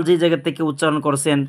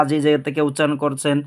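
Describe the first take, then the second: No difference in how they are said.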